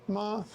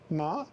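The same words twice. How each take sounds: First: The pitch stays high and level. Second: The pitch rises from middle to high. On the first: It means mother. "Ma is mother" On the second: It means hemp. "Ma is uh, um, hemp"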